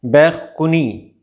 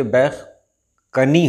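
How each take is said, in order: First: बैखकुनी with "u" after k; wrong pronunciation. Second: बैखकनी with short "a" after k; correct pronunciation. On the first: Teacher showing viewers the common error, mispronounced. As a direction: say "bekh-ku-ni" for बैखकुनी. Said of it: "ये नहीं होता है". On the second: Teacher telling viewers to read with zabar, correctly pronounced. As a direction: say "bekh-ka-ni" for बैखकनी. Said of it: "ज़बर के साथ आपको पढ़ना है". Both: Shown as a demonstration.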